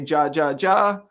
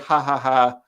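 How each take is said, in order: First: Each syllable starts with an English J sound. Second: Each syllable starts with a breathy H sound. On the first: The speaker calls it wrong. "we pronounce the J as ja" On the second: The speaker calls it right. "ha ha ha with an H"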